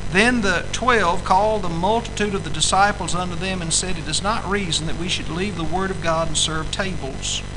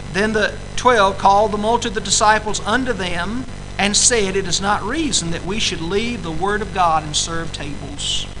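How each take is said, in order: The two takes are said the same way.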